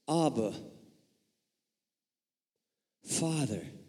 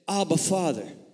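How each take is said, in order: First: A clear pause separates the two words. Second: The two words run together without a pause.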